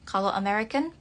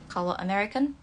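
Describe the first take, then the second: No difference in how they are said.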